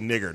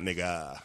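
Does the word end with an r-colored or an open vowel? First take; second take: r-colored; open vowel. First: The word ends with an r-colored vowel. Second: The word ends with an open vowel. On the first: This is the form the speaker uses. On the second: This is the form the speaker avoids.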